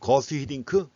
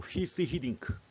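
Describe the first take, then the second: First: The first name is pronounced in an English way. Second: The first name is pronounced in a Dutch way. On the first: The speaker calls it wrong. "거스가 아니라" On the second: The speaker calls it right. "그 네덜란드 발음으로 하면"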